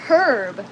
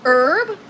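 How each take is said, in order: First: "herb" with a breathed H at the start; sounded H. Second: "herb" with the H dropped, like "urb"; silent H. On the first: Host offering viewers the other option, "herb" with sounded H. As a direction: say "herb" with the H pronounced, drawn out. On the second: Host asking viewers how it is pronounced, "herb" with silent H. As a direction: say "herb" starting straight on the vowel, drawn out. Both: Shown as a demonstration. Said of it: "How do you pronounce it?".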